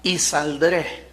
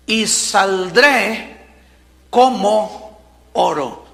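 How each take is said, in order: First: "y saldré" slow and softer, rising on "y"; emphasis on "y saldré". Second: Drawn-out, weighty "Y saldré como oro"; emphatic and slow. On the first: Shown as a demonstration. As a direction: linger on "y saldré" and lift the "y". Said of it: "yo quiero enfatizar la palabra". ("y saldré" lento, subiendo en la "y") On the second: Acted. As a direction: stretch each word with conviction. Preacher savors Job's words. (lento y enfático, "Y saldré como oro")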